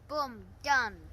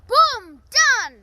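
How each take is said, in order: First: It is said plainly, without much energy. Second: It is said with lively, passionate energy.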